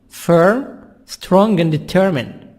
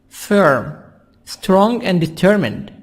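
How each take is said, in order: The two takes are said the same way.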